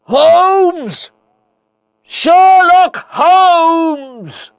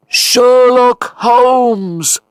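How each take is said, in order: First: Very high, drawn-out calling; desperate loud shout. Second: Long, high echoing call; echo of a shout. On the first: Watson calling into the falls for his friend, shouting as loud as he can. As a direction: shout the name across a chasm, holding each word. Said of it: "shouted as loudly as I could". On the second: Watson's own voice returning from the falls, echoing. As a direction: send the shout back as a drawn-out echo. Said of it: "came the echo of my own voice". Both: A narrator's reading.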